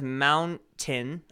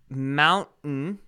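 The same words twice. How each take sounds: First: The middle T sound is clearly pronounced. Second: The middle T sound is dropped.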